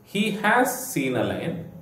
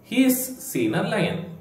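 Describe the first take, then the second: First: He has is said as two full words. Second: He has is shortened into one syllable. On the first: "ಹಿ ಹ್ಯಾಸ್" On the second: "contract ಮಾಡಿ ಹೀಸ್ ಅಂತ ಉಚ್ಚಾರ ಮಾಡ್ತೇವೆ"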